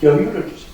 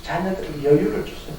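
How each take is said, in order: First: Said in the usual way. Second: 여유를 said gently and much softer, the whole plea hushed; quiet pleading echo, 여유를 barely pressed; soft repeat. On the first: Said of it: "여유를 주세요 repeated". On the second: Shown as a demonstration. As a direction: lower the voice and plead 여유를 tenderly.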